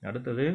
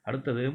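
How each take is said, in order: Both takes have the same delivery.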